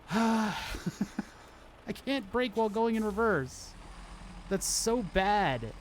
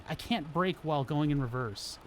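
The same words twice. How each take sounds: First: Higher, exasperated sighing complaint. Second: Said in the usual way. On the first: Real, not acted. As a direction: complain with a weary sigh. Repeats complaint after a sigh.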